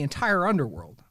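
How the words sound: It is said in an exasperated, casual voice. The speaker calls it right. "He usually sounds exasperated"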